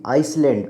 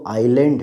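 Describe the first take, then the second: First: The s sound is pronounced in the word. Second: The s sound is silent in the word. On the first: The speaker calls it wrong. "अब बिल्कुल गलत लोग उच्चारण कर देते हैं" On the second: The speaker calls it right. "बल्कि वो आइलैंड है"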